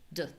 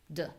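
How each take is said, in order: First: The vowel is low, unclear and short. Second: The same.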